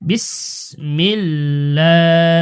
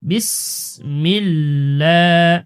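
No difference in how they are said.

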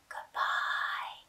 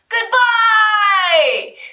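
First: It is said very quietly. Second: It is said very loudly.

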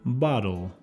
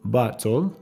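First: The middle consonant sounds like a soft D. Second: The middle consonant is a clear T sound.

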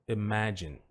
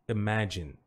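No difference in how they are said.

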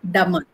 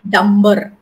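First: No b sound is heard after the m. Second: A b sound is heard after the m. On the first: The speaker calls it right. "So B is silent" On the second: The speaker calls it wrong. "not dumber"

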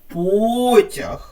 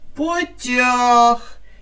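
First: The stress is on the first syllable. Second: The stress is on the second syllable. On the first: "В цьому слові наголошений склад перший" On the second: "поставимо його на другий склад"

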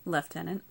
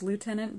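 First: The word is said with a British pronunciation. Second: The word is said with a non-British pronunciation. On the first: "the British pronunciation is lieutenant" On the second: "I used to think it was lieutenant"

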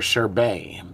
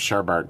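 First: The second syllable has no r sound. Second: The second syllable has an extra r sound. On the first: The speaker calls it right. "It's pronounced sherbet" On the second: The speaker calls it wrong. "it's not actually pronounced sherbet"

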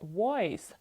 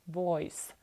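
First: It starts with a rounded-lip W sound. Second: It starts with a V sound. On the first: The speaker calls it wrong. "не voice" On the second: The speaker calls it right. "Тому що в нас V присутнє"

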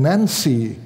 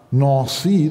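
First: It is pronounced the American way. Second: It is pronounced the French way. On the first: "spricht das quasi amerikanisch aus" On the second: "die meisten Deutschen können doch etwas Französisch und sprechen das dann korrekt aus"

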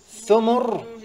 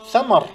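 First: Both vowels are 'u' sounds: thumur. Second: Both vowels are 'a' sounds: thamar. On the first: It means wealth. "بضم الثاء والميم" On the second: It means fruits, the plural of fruit. "بفتح الثاء والميم"

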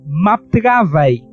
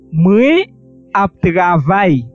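First: The pronoun is shortened to a single m sound. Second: The pronoun is said in full as mwen. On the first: "es solamente una M. Se lee así" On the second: "en vez de moi"

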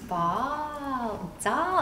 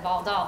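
First: The words are slow and stretched out. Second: The words are said quickly and short.

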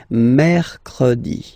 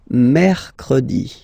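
The two takes are said the same way.

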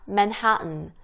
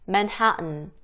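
Both takes have the same delivery.

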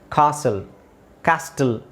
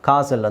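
First: The t sound in the middle is pronounced. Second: The t sound in the middle is silent. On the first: The speaker calls it wrong. "ಕ್ಯಾಸ್ಟಲ್ ಅಂತ ಹೇಳಲ್ಲ" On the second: The speaker calls it right. "ಕಾಸಲ್ ಅಂತ ಹೇಳ್ತಾರೆ ಅದನ್ನು"

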